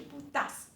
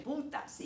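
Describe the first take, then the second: First: "butas" said bu-TAS; stress on second syllable. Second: "butas" said BU-tas; stress on first syllable. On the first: Teacher contrasting meanings for learners, "butas" stressed on TAS. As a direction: land the weight on "tas" in "butas". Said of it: "看啊，不一样哈". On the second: Teacher contrasting meanings for learners, "butas" stressed on BU. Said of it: "它的重音是不一样的". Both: Shown as a demonstration.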